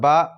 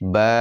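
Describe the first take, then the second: First: The vowel is cut very short. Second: The vowel is held moderately long. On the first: The speaker calls it wrong. "এরকমও হবে না" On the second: The speaker calls it right. "এক আলিফ পরিমাণ টান দিয়ে লম্বা করে পড়তে হবে"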